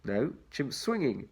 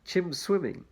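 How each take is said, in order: First: Slow correction stressing "swinging"; slowly fix it, leaning on "swinging"; correcting the word. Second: Said in the usual way. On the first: Shown as a demonstration.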